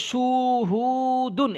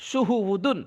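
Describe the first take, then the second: First: "সুহু দুন" slow, each vowel held long; wrongly stretched vowels. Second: "সুহু উ দুন" read briskly with all vowels short. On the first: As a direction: show the error by dragging "সুহু দুন" right out. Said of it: "এভাবে পড়ে ভুল". ("সুহু দুন" ভুল করে লম্বা টানে) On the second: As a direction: model "সুহু উ দুন" without any stretching. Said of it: "এগুলো একটু খেয়াল করতে হবে". ("সুহু উ দুন" টান না দিয়ে) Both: Shown as a demonstration.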